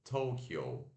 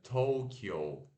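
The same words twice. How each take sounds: First: It is pronounced the English way, as Tokyo. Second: The same.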